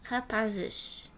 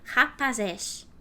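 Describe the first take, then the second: First: The unstressed vowels are closed and reduced. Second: Every vowel is pronounced fully open. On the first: The speaker calls it right. "We speak this way" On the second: The speaker calls it wrong. "When everything is open"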